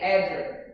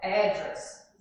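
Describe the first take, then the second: First: The stress is on the second syllable. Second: The stress is on the first syllable. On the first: This is the American pronunciation. "Já junta com D" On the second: This is the British pronunciation. "is emphasized in ad"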